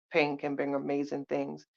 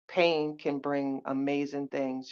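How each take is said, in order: First: Said in the usual way. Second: Slow, weighted, every word of "pain can bring amazing things" leaned on; "pain" drawn out and stressed, slow pace; slow emphatic repeat. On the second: Shown as a demonstration. To the viewers, stressing the lesson, slow and weighty.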